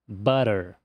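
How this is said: The middle consonant is a quick soft flap. "Enquanto no americano isso vira butter"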